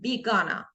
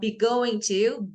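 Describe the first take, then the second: First: Going to is blended into one short word. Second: Going to is said in full, word by word. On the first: "we say gonna" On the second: "instead of be going to"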